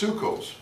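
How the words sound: It is said with the Ashkenazi pronunciation.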